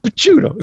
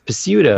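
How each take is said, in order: First: The name is said with an Italian pronunciation. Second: The name is said with an anglicized pronunciation. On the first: The speaker calls it right. "it's pronounced Picciuto" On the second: The speaker calls it wrong. "instead of people like having a family name and they say, oh, no, it's it's Picciuto"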